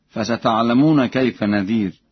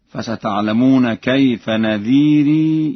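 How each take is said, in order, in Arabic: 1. لا تنتهي الكلمة الأخيرة بحركة مضافة. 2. تنتهي الكلمة الأخيرة بحركة مضافة 'ee'.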